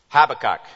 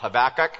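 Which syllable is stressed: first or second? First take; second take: first; second. First: The stress is on the first syllable. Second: The stress is on the second syllable. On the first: The speaker calls it right. "Emphasis on the first syllable" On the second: The speaker calls it wrong. "Not Habakkuk. A lot of people do"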